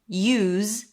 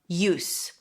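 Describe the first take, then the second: First: The word ends with a Z sound. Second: The word ends with an S sound. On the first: It is the verb. "then it's spelled with the Z sound" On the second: It is the noun. "or it's the noun use"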